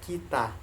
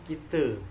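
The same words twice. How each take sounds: First: The final vowel is an open 'a' sound. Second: The final vowel is a low, 'e'-like sound. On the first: This is the Indonesian pronunciation. "itu bahasa Indonesianya kita, pengucapannya kita" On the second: This is the Malay pronunciation. "orang Melayu itu mengucapkan kita"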